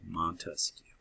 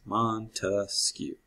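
First: Montesquieu whispered softly, no voice; whispered memory cue Montesquieu; whispered name. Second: Montesquieu said very slowly, MON-tes-quieu, all three syllables clear; teacher drawing out Montesquieu's three syllables; syllables spelled out. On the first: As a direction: hush Montesquieu like a secret. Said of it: "just say it aloud". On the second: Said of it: "Three syllables". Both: Shown as a demonstration.

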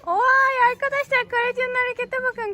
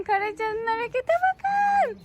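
First: High, bright cheer for her daughter; excited cheering. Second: High and slow, stretching the words; drawn-out excited cheer. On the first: Mother cheering child's climbing move. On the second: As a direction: savour the cheer slowly. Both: Real, not acted.

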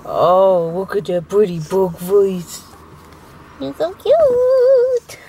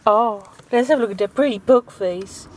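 First: Put-on slow cooing baby talk for a pug. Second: Said in the usual way. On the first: Shown as a demonstration. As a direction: coo slowly at the dog like baby talk. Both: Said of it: "George loves my pug voice".

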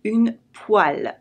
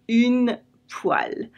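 First: "Une poêle" said slowly, /yn pwal/; slow, careful teaching of a French word; slow model word. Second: "Une poêle" whispered slowly, /yn pwal/; a slow, whispered echo of the word. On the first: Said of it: "It comes from the word pan". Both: Shown as a demonstration.

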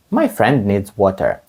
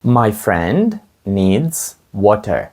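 First: Said in the usual way. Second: Very slow, each word laid out clearly; teacher's slow drill pace; slow model sentence. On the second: Shown as a demonstration. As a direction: say it slowly for learners to copy. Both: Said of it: "Моєму другові потрібна вода".

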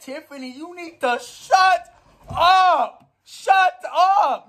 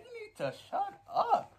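First: Mock scolding. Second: High mock scolding. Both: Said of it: "She said".

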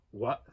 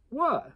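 First: Said in the usual way. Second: High innocent elf asking what; much higher, feigned puzzled elf. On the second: Acted. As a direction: play dumb as the elf, pitched up. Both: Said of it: "the elf, "What?".

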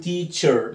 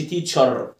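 First: "teacher" slowly, ending in "er"; correct pronunciation. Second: "teacher" ending in an open "ar"; "teacher" with a full "ar" at the end; mispronunciation demo. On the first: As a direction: say "teacher" as "tee-cher". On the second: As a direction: say "teacher" wrongly as "tee-char". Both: Shown as a demonstration. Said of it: "ما تقولش teacher".

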